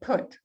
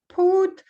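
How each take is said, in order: First: The vowel is short and relaxed. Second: The vowel is long, like in blue. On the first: The speaker calls it right. "it's more of a put, короткое" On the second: The speaker calls it wrong. "it's not put"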